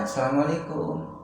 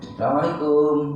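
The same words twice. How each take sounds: First: The greeting is said softly. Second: The greeting is said loudly.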